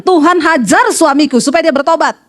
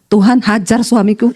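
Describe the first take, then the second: First: Firm, coaching demonstration of a prayer; prayer being taught. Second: Low, slow mock-innocent prayer; wife's deadpan prayer. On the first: Shown as a demonstration. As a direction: model the prayer emphatically for her. (doa tegas yang dicontohkan) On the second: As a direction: recite it calmly, drawn out and pitched down. Wife repeats the taught prayer deadpan. (istri berdoa pelan dengan suara rendah)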